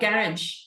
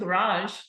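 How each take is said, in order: First: The word is said with a British accent. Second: The word is said with an American accent. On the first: "we said uh, garage" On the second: "instead of garage"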